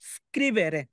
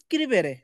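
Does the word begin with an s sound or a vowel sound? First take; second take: s sound; vowel. First: The word starts directly with the s sound. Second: A vowel sound comes before the initial s. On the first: The speaker calls it right. "তার উচ্চারণটা নিতে হবে কি?" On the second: The speaker calls it wrong. "অনেকে অনেকে স্ক্রিবেরে উচ্চারণ করে স্ক্রিবেরে, না"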